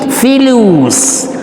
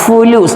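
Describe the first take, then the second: First: The first syllable has the vowel 'i'. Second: The first syllable has the vowel 'u'. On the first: The speaker calls it right. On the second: The speaker calls it wrong. "bukan fu"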